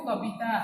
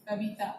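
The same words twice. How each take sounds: First: कविता said as कबिता with a b; Odia pronunciation. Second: कविता with a soft v; Hindi pronunciation. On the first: Teacher showing students the Odia कविता. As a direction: say कविता with a b in the middle. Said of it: "Odia में क्या कहते हो". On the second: Teacher showing students the Hindi कविता. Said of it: "Hindi में भी उसको कविता ही कहा जाता है". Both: Shown as a demonstration.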